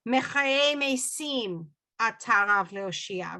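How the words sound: The second word is said with an s sound.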